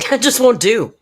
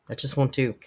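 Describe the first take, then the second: First: A laughing, higher and louder mock-haughty That just won't do; mock indignant. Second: Said in the usual way. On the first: Streamer hamming up a mock complaint to chat, haughty and indignant. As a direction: huff it out like an offended aristocrat.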